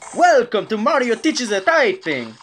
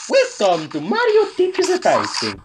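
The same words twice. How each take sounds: First: It imitates the other guy's Mario voice. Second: It imitates the familiar Mario voice.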